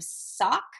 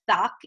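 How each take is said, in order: First: The word begins with a clear s sound. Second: The word begins with a lisped th sound. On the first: The speaker calls it right. "instead of sock" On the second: The speaker calls it wrong. "pronounce their S as a T H"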